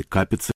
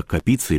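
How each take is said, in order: First: "Капицы" stressed on the first syllable, КА-пи-цы. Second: "Капицы" stressed on the middle syllable, ка-ПИ-цы; stress on second syllable. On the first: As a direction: say "Капицы" with the weight on КА. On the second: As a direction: say "Капицы" with the weight on ПИ. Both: Shown as a demonstration. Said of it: "как делают ударение".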